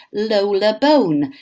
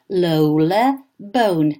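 First: Said in the usual way. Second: Lola Bone with long gliding O in "Bone"; slow drawn-out O sounds. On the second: Shown as a demonstration. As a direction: stretch every O in Lola Bone slowly. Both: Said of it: "a name with the sounds of O".

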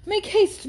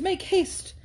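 First: Loud, much higher call up the stairs. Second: Calling out again. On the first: Thorpe calls up the stairs to hurry Catherine, loud and high. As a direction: shout Make haste up to her. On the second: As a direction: repeat the hurry call, easing off. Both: Acted. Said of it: "he was calling out to Miss Moreland".

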